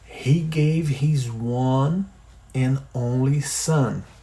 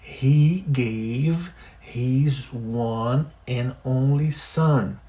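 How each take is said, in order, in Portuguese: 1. A frase é dita devagar. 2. A frase é dita ainda mais devagar. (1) "Vamos repetir devagar?" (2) "De novo, mais devagar"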